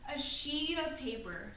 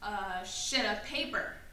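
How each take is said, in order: First: The vowel in sheet is a long E. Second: The vowel in sheet is a short I. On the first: The speaker calls it right. "with a long E sound" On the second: The speaker calls it wrong. "I pronounced it with a short I sound"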